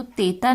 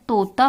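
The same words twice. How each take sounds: First: तेता said with a clear ए, as written; teacher reads तेता aloud to show it is wrong; wrong word. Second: तोता said with a clear ओ in the first syllable; teacher stresses तोता as the fixed word; correct word. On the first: Teacher reads the misspelled word तेता to children. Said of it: "तो तेता नहीं होता है". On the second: Teacher gives children the right word, तोता. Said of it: "तोता होता है". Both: Shown as a demonstration.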